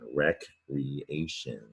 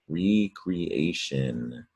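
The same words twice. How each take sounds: First: The first syllable is said as rek. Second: The first syllable is said as ree. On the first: Leisure activity that restores or revives. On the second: Creating something again.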